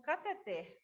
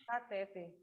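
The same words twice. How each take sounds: First: Cateter stressed on the last syllable, ter, open e; correct stress cateter. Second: Catéter with stress on té, the common way; wrong stress catéter. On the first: Teacher shows the class the correct stress on ter. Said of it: "por causa da sílaba tônica". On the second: Teacher echoes the students' usual pronunciation, stress on té. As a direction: say Catéter stressing the middle syllable té. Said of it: "é pronunciada como cateter". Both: Shown as a demonstration.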